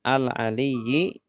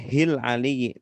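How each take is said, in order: First: The phrase starts with the syllable al. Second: The phrase starts with the syllable hil. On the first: The reading starts at the beginning of the word. The speaker calls it right. "Alif lam berarti bacanya al" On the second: The reading starts in the middle of a linked word. The speaker calls it wrong. "tidak boleh hil aliyyi"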